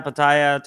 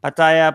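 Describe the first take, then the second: First: Pattaya slurred to puh-TIE-uh; trying another pronunciation. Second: Pattaya with a clear pa-TA-ya, louder; trying one pronunciation. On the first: Vlogger tries the other version for the chat, quicker. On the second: Vlogger tries the city name again for the chat, louder. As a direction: say Pattaya crisply, every syllable sounded, pa-tai-YAH. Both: Shown as a demonstration. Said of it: "Bye-bye".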